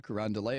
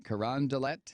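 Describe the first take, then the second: First: Carondelet with a silent final T; probable pronunciation. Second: Carondelet with a hard final T; pronounced as spelled. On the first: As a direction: say Carondelet ending in "-lay". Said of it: "is probably how it's pronounced". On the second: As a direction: say Carondelet ending in "-let", T sounded. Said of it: "is the way it's spelled". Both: Shown as a demonstration.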